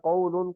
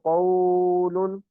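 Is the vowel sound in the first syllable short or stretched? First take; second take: short; stretched. First: The first vowel is kept short. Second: The first vowel is drawn out long. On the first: The speaker calls it right. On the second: The speaker calls it wrong.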